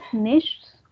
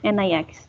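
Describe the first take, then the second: First: The word has a soft 'ch' before the 'ts'. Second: The word has a hard 'k' sound before the 's'. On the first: "So that is nichts oder nix" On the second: "Some people pronounce it as nix"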